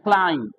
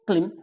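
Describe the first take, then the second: First: The vowel is a long 'eye' diphthong. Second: The vowel is a short 'i' sound. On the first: The speaker calls it right. "क्या पढ़ना है? क्लाइंब" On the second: The speaker calls it wrong. "इसको क्लिम नहीं पढ़ना है"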